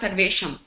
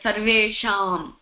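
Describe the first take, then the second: First: The middle vowel is cut short. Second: The middle vowel is held long. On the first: The speaker calls it wrong. "It's not Sarvesham" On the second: The speaker calls it right. "take care of the long vowel, like Sarvesham"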